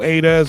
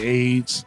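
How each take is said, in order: First: The name is said as a-dez. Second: The name is said as one syllable, aids. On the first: "People say A Dez" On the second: "if somebody being funny, they say AIDS"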